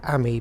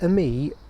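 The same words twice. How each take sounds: First: The word is said with a British pronunciation. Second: The word is said with a French pronunciation.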